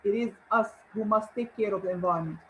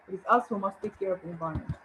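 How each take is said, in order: First: Us leaned on, the rest unhurried; deliberate emphasis landing on "us"; stress on us. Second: Fast, lighter run-through with "us" still marked; brisk restatement of the sentence; quick repeat. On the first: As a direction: make "us" the word that carries the line. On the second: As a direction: rattle it off quickly, just touching "us". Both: Shown as a demonstration. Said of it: "here I'm using it for emphasis".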